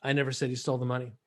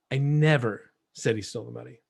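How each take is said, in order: First: Said in the usual way. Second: "never" punched, then a pause; stress on NEVER. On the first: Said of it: "I'm gonna give you a sentence". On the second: Shown as a demonstration. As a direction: hit "never" hard and pause after it. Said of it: "listen to how I say this".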